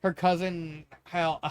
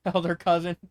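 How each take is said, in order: First: Said in the usual way. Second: Laughing. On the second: Real, not acted.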